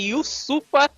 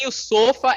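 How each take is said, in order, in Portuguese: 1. A segunda vogal soa como 'u'. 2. A segunda vogal soa como 'o'. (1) "é Yusufa Ndie" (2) "não é Yusofa"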